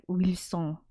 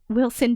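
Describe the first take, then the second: First: "Wilson" Frenchified as "weel-SON" with a nasal ending; "Wilson" in mock French; French pronunciation. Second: Said in the usual way. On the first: Shown as a demonstration. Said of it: "doesn't sound like a French name. Maybe it's like". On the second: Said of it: "doesn't sound like a French name".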